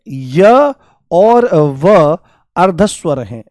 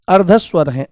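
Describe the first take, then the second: First: Drawn-out slow teacher emphasis; slow, deliberate classroom emphasis; slow for memorising. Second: Said in the usual way. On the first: Shown as a demonstration. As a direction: spell it out slowly so they remember. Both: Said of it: "आपको याद रखना है".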